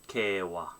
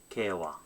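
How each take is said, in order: No difference in how they are said.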